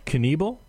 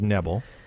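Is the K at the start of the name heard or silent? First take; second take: heard; silent. First: The initial K is pronounced as a hard sound. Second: The initial K is soft, not pronounced.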